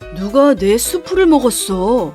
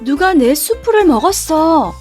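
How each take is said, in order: First: It is said in a low voice. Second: It is said in a medium voice.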